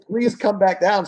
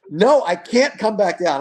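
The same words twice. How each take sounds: First: High, slow, begging dad voice; pleading. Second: Put-on high, slow, frightened child voice; scared whining kid. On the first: Retold or imitated. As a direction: coax her down gently. Dad pleading with daughter on platform. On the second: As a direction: whine it out like a frightened girl. Scared daughter refusing on high platform.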